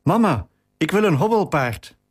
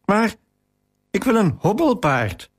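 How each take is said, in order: First: Put-on child's breathless cry, pitched higher; a lightly acted out-of-breath child calling to mama. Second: Put-on mild, higher-pitched tearful child's protest; a child's understated weepy wail; a hint of sobbing child, pitched up; crying out. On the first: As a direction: burst in calling out, mildly winded. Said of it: "riep buiten adem". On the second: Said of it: "riep ik huilend uit". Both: A narrator's reading.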